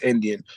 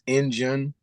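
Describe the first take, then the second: First: It is said the general way, as Indian. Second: It is said the New Orleans way, like Injun.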